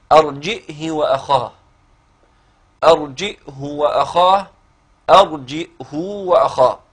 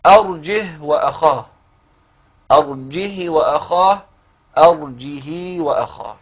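First: أرجئه with a clear glottal stop after the jim, each of the three vowelings of the ha given in turn; readings with hamza. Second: أرجه with no glottal stop, jim running straight into ha, said slowly; readings without hamza. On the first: Teacher models the three hamza readings for his student, slowly articulated. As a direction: demonstrate أرجئه وأخاه carefully with the hamza sounded. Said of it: "هكذا القراءات الثلاث اللي بالهمز".

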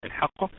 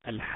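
First: Said in the usual way. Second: الحاقة with the first «ا» held very long; madd elongation. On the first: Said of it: "الحاقة مد لازم". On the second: Shown as a demonstration. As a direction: stretch الحاقة steadily before the doubled ق. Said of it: "مثال: الحاقة". (مدّ طويل لألف الحاقة)

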